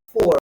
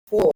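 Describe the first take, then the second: First: "four" with a strong final R; American "four", ending on a curled R. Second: "four" with the final R dropped; British "four", no R at the end; British R-less four. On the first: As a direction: sound the R fully in "four". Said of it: "like the Americans". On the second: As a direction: say "four" as a long open "faw". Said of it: "they pronounce it different". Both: Shown as a demonstration.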